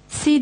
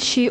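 First: The syllable starts with a plain s sound. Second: The syllable starts with an sh sound. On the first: The speaker calls it wrong. "Si değil" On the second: The speaker calls it right. "şi olacak"

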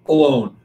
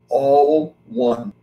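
First: It is said as one word, uh-lone. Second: It is said as two words, all one. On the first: Being by oneself, apart from others. The speaker calls it wrong. "Most people mispronounce it. They think it's pronounced alone" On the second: Being united with everything. The speaker calls it right. "it's really pronounced all one"

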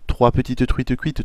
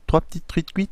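First: Every syllable is pronounced clearly and separately. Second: Some syllables are shortened or run together. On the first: "en détaillant bien chaque syllabe" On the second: "de manière un peu plus raccourcie"

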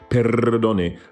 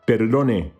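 First: The R is a rolled, trilled sound. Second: The R is a single quick tap. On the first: The speaker calls it wrong. "so it's not a trilled R. It's not perdone" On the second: The speaker calls it right. "a single touch with the tip of the tongue against the gum ridge"

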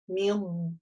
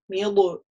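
First: The consonant is held with a swallowed sound. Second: The consonant ends with a bouncing vowel-like release. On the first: The speaker calls it right. "у нас мил, мил, такой звук, как будто внутреннее глотание" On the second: The speaker calls it wrong. "милу, это неверно"

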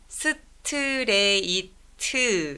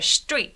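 First: The word is broken into five separate syllables. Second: The word is said as one short syllable. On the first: The speaker calls it wrong. "스트레이트 이렇게 다섯 음절 아니고요" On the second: The speaker calls it right. "사실은 이음절 straight 하고 넘어가기 때문이다"

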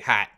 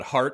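First: The r sound is dropped after the vowel. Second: The r sound is pronounced after the vowel. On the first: "I wouldn't say Hat" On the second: "if I just say Chicago got Hart in a second, that sounds fine"

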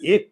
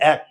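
First: The vowel is a closed 'e' sound. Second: The vowel is an open 'a' as in cat. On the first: The speaker calls it wrong. "আমরা এক বলি না" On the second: The speaker calls it right. "আমরা এটা উচ্চারণ করি এক, অ্যা অ্যা অ্যা"

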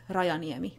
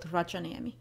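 First: The J is pronounced like an English y. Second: The J is pronounced like an English j. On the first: The speaker calls it right. "the Finnish J behaves a lot like the English Y, so it's Rajaniemi" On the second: The speaker calls it wrong. "not Rajaniemi"

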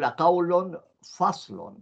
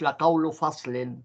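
First: Both words end with -un, noun plus adjective. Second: First word ends in -u, second in -in. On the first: The second word describes the first. The speaker calls it right. "إنه لقول فصل" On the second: The first word is possessed by the second. The speaker calls it wrong. "مش لقول فصل"

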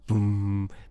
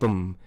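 First: The boom is drawn out and lingers. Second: The boom is short and stops quickly. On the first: The bass decays slowly. "a bit more lingering effect on that sub bass" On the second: The bass decays quickly. "which has faster one"

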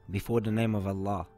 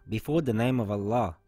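Both takes have the same delivery.

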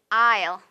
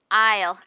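No difference in how they are said.

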